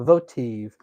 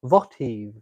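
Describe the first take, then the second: First: "votive" said as VOH-tiv, long o, stress on the first syllable; "votive" said firmly as VOH-tiv with a falling close; settled pronunciation. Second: "votive" said as VAH-tee, short a and no final v; "votive" tried out as VAH-tee, questioning rise; trying the pronunciation. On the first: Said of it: "I think I was correct on how to pronounce". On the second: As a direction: test "votive" as VAH-tee, stress on the first syllable. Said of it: "Is it a-, accent on the vo". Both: Shown as a demonstration.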